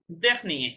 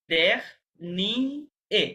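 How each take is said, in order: First: Said in the usual way. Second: দেখ নি এ spoken as separate syllables with pauses. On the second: Shown as a demonstration. (Syllable আলাদা করে উচ্চারণ)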